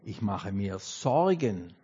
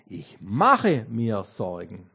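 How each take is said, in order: First: The stress is on the word Sorgen. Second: The stress is on the word mache.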